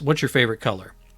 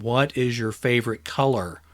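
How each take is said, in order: First: It is said at normal loudness and speed. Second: It is said louder and more slowly.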